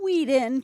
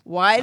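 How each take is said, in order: First: The first syllable sounds like 'wee'. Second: The first syllable sounds like 'why'. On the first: The speaker calls it wrong. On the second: The speaker calls it right.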